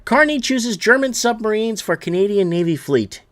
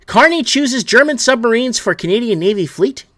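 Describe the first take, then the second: First: Said in the usual way. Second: Incredulous. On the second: Real, not acted. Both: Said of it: "You seriously can't make this shit up".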